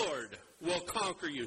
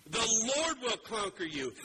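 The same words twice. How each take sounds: First: Said in the usual way. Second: "Lord" slowed and raised, leaned on hard; the repeat preached with weight on "Lord"; stress on Lord. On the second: Shown as a demonstration. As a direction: hit "Lord will conquer you" slow and loud.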